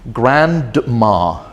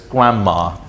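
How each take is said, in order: First: The D sound is pronounced in the middle. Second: The D sound is dropped in the middle. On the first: The speaker calls it wrong. "I also heard someone saying this word, but pronouncing it as grandma" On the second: The speaker calls it right. "So the D is gone"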